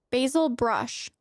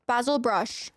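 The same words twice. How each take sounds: First: Said in the usual way. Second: Basil as BAZ-ul; British pronunciation. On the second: Shown as a demonstration. Streamer recalling a fox's name, Basil as BAZ-ul. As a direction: say Basil with a short a, as in jazz. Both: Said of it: "If you say basil is basil".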